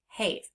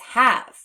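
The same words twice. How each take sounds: First: The vowel is a long A, like 'hayv'. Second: The vowel is a short A, like 'hav'. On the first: The speaker calls it wrong. "we would actually expect this word to sound have" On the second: The speaker calls it right. "It's have"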